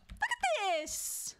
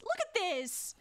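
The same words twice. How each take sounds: First: Very slow, high, drawn-out scolding; high mock-indignant wail, each word dragged; exaggerated mock outrage. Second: Raised-pitch mock scolding; indignant but playful demand; mock outrage. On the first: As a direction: stretch it out in appalled disbelief. Mock telling-off, repeated for emphasis. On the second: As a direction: point out the mess, playfully appalled. Mock telling-off, first take.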